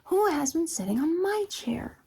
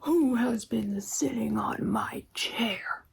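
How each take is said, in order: First: It is said in a middle-sized voice. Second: It is said in a great big voice. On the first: "cried in a middle-sized voice" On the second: "he cried out in his great big voice"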